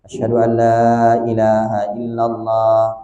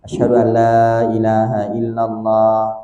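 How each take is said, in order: No difference in how they are said.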